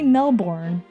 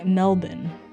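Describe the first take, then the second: First: Melbourne is said with an American pronunciation. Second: Melbourne is said with a non-American pronunciation. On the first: The speaker calls it wrong. "Don't say Melbourne because that's what the Americans say" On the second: The speaker calls it right. "It's it's apparently Melbourne"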